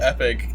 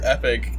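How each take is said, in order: First: The title is pronounced like the word epic. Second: The title is pronounced like the word epic.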